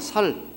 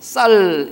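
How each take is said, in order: First: The first consonant is plain. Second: The first consonant is tense. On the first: The speaker calls it wrong. "안 그러면 살 이런다고요" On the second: The speaker calls it right. "상시어를 해서 쌀 이렇게 해야 되지"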